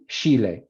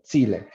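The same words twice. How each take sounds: First: Chile said with sh, as SHEE-leh. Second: Chile said with a crisp ch, as CHEE-leh. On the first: Teacher shows the stigmatized sh in Chile. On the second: Teacher shows the prestige ch in Chile. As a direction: Chile with a clear ch at the start. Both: Shown as a demonstration. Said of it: "Entonces, Chi".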